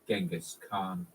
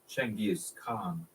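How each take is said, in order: First: The name begins with a hard g sound. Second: The name begins with a ch sound. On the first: The speaker calls it wrong. "an extremely common mispronunciation" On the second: The speaker calls it right. "it entered the Persian language relatively unscathed as"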